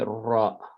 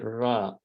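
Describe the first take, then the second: First: The r is said strongly, with a vibrating tongue. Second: The r is said weakly, without a strong trill. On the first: The speaker calls it right. "you say ra, ra. It's like make it strong" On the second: The speaker calls it wrong. "you didn't say ra"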